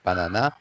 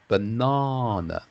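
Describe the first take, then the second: First: The vowel sound is short and clipped. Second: The vowel sound is long and drawn out. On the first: The speaker calls it wrong. "It's not like banana" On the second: The speaker calls it right. "it's a bit of a longer sound"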